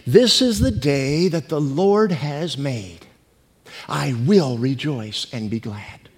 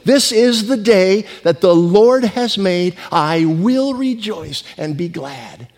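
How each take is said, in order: First: It is said calmly, with less energy. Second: It is said with more gusto and energy.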